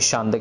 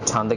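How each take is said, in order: First: It starts with 'sh' and ends in 't'. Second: It starts with 'chh' and ends in 'd'. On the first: The speaker calls it wrong. "ना ही शांत कहना है" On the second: The speaker calls it right. "सो छंद कहना है"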